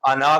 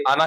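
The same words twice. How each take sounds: First: अना with the final ना held long; अना as "anaa", long last vowel; long-vowel reading. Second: आना said as "ana" with a short final na; आना ending quickly, no stretch; short-vowel reading. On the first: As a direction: sound the alif at the end of अना. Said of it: "अना क्यों नहीं पढ़ रहे". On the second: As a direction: leave the alif silent at the end of आना. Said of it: "आना क्यों नहीं पढ़ रहे". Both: Shown as a demonstration.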